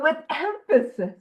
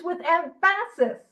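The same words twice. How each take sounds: First: Said in the usual way. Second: Emphasis said as em-FASS-is, middle syllable stressed; emphasis misplaced. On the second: Real, not acted. Speaker reading to the group stumbles on emphasis, stressed em-FASS-is. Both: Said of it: "put that emphasis on the wrong syllable".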